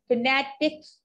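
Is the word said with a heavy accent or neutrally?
accented. The word is said with a heavy, put-on accent. The speaker calls it wrong. "करके नहीं बात करूंगी"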